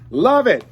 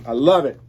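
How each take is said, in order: First: Delighted. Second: Said in the usual way. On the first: Real, not acted. Delighted by the album photo.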